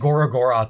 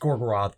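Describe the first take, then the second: First: The name is said with an extra fourth syllable. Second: The name is said with three syllables. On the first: The speaker calls it wrong. "they say Gorogoroth" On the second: The speaker calls it right. "it's Gorgoroth"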